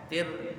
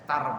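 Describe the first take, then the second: First: The syllable has the vowel i. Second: The syllable has the vowel a. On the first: "tir boleh" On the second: "tar boleh"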